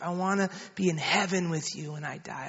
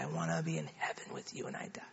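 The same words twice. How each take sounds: First: Retold prayer line, soft and measured; lightly voiced mother leading in prayer. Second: Very low, soft, quick repeat; retold prayer fading almost to nothing; child echoing prayer. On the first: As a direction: give the line quietly for repeating. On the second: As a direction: imitate a child's hushed, hurried echo. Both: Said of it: "You just pray after me".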